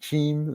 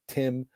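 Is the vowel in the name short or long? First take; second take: long; short. First: The name has a long vowel, sounding like 'team'. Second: The name has a short vowel, like English 'Tim'.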